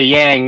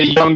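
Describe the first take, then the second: First: The vowel sounds like the one in 'yang'. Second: The vowel sounds like the one in 'young'. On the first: This is how people from the South say it. "that's how people from the South say it" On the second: This is how people outside the South say it. "They don't say Young"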